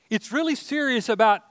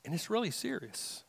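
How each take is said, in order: First: Preacher pressing the point home; emphatic repeat. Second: Quiet gravity before the repeat; hushed. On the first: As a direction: lift and stress really in It's really serious. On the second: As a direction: drop to a near hush on really serious. Quiet line before emphatic repeat. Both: Acted.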